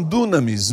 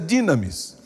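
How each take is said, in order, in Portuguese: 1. A primeira vogal soa como 'oo'. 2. A primeira vogal soa como 'ee'. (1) "Alguns falam dunamis" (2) "a pronúncia mais correta é dinamis"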